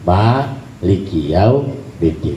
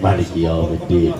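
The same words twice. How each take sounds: First: The first vowel of maliki is long. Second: The first vowel of maliki is short. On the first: "Yang benar ya yang kita baca" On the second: "jadi bacanya pendek"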